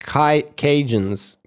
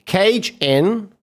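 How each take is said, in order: First: "Ca-, Cajuns" said slowly as one word, KAY-junz; careful correct Cajun. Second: "Cage In" said as two words, KAYJ then IN, like a cage; mispronounced Cajun. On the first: Shown as a demonstration. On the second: Real, not acted. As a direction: mangle "Cage In" into cage plus in. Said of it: "is the hardest American accent to discern".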